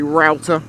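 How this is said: It is said with an American pronunciation. "if you were American, you might say router"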